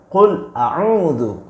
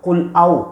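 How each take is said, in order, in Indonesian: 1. Kata kedua diucapkan lengkap dengan akhirannya. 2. Kata kedua diucapkan terpotong pendek, akhirannya dihilangkan. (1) "Yang benar itu qul a'udzu" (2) "Apa itu artinya? ... bukan qul au"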